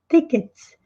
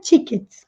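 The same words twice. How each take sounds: First: It is said with an American English pronunciation. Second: It is said with a Brazilian Portuguese pronunciation. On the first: The speaker calls it right. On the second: The speaker calls it wrong.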